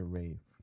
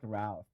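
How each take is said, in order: First: The name is said without L, rhyming with 'safe'. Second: The name is said with an L, rhyming with 'alf'. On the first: This is the British way of saying it. "Pero sa British, ang pronunciation nun ay Rafe" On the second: This is how the spelling suggests it. "dapat Ralph"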